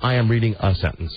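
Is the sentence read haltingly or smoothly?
smoothly. It is read in a smooth, natural way. Someone reads naturally. The speaker calls it right.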